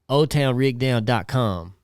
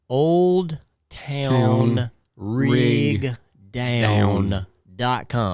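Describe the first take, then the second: First: The d in 'old' is dropped, sounding like 'ole'. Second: The d in 'old' is clearly pronounced. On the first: "if you say it like I say it" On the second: "I don't have real good enunciation. So let me say"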